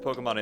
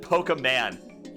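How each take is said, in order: First: The E sound is short and ordinary. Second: The E sound is heavily drawn out.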